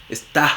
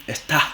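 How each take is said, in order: Both takes have the same delivery.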